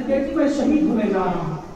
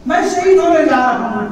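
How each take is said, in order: First: Gentle telling. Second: Louder, higher grieving repeat of शहीद; rising grief. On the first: Father gently tells his little daughter he will die. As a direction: break it gently to a child. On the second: Father repeats to his daughter that he will die, louder and aching. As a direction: let शहीद ring out in grief. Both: Acted. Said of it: "मौला हुसैन कहते".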